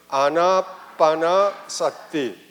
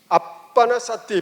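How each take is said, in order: First: The phrase is said slowly and fully. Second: The phrase is said quickly and run together.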